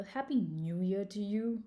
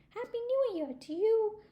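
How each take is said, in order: First: Grumpy porcupine. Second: High-pitched, excited squirrel greeting; cheery well-wishing. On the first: A narrator's reading. Grumpy porcupine answers squirrel at the diner, mildly grumpy. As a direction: wish it with little cheer. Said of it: "very grumpy". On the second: Acted. Squirrel greets Mister Turtle at New Year, cheery well-wishing. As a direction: wish it brightly, way up high.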